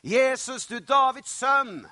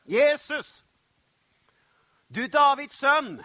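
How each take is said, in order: First: Loud, high cry to someone far off; raised-voice shout, drawn out at the end; calling out. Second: Full, high-pitched shout; loud, urgent cry to be heard; shouting even louder. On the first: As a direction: call out for help across a crowd. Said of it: "så roper han". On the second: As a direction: yell desperately over those hushing you. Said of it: "roper bare enda høyere". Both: Acted.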